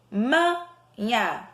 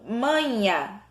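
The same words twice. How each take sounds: First: "Manha" broken after MA, with a pause; split syllables. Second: Said in the usual way. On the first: Shown as a demonstration. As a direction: say MA, wait, then "nha". Splits word to find stressed syllable.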